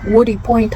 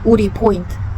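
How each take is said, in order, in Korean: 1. 영어식 억양으로 발음됐어요. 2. 한국식 억양으로 발음됐어요. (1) "그제서야 우리 포인트 하니까 알아듣더라고요" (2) "가끔씩 한국인 발음이 나올 때가 있습니다"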